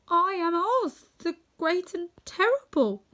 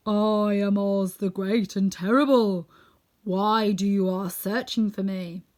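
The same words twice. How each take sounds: First: High, slow, frightened little man; trembling voice. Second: Slow, loud, drawn-out proclamation; booming solemn wizard, words stretched out. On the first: Little man owns up to attackers, high and trembling. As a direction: falter through the title in a high voice. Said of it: "in a trembling voice". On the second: Unseen Oz addresses the visitors from the dome, solemn and loud. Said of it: "they heard a solemn voice". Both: A narrator's reading.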